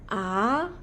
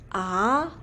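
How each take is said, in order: First: The pitch rises like a question. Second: The same.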